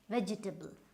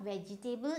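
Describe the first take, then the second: First: The middle syllables are weak and reduced. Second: Every syllable is stressed and said in full. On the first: The speaker calls it right. "it's vegetable. So again your E and your A" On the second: The speaker calls it wrong. "not vegetable"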